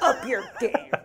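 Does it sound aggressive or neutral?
aggressive. It is said in an aggressive tone.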